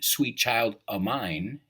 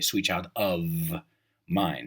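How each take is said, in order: First: The 'of' is reduced to a short 'o'. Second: The 'of' is said fully with its 'f'. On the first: "not of mine" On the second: "en vez de"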